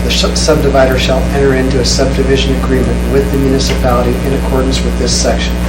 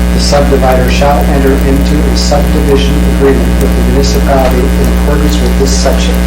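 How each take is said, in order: The two takes are said the same way.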